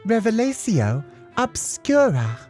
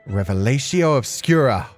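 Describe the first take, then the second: First: The words are said slowly and carefully. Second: The words are said quickly and forcefully. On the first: The speaker calls it right. "Slowly this time" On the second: The speaker calls it wrong. "Your pronunciation is that of an illiterate stable boy"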